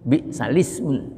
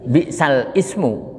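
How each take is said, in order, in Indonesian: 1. Kedua kata itu langsung disambung. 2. Kedua kata itu dipisah. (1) "Namanya wasal, diteruskan" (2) "Tulisannya kan bi'sal ismu"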